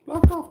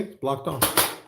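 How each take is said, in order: First: Much higher and louder, playful squeak; tiny cartoon voice announcing it; squeaky silly voice. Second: Said in the usual way. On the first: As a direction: squeak it out like a toy. Repeats phrase in squeaky voice.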